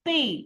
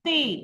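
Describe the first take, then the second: Both takes have the same delivery.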